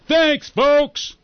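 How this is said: It is said loudly, as Warren Knox.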